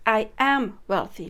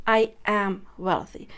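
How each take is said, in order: First: Said in the usual way. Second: "I am wealthy" said slowly with weight on I; slow, firm "I am wealthy". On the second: Shown as a demonstration. Teaching the right affirmation, slow and firm. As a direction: lean into "I am wealthy" as a fact. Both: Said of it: "you would say".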